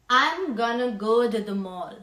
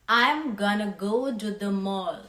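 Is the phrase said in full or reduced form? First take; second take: reduced; reduced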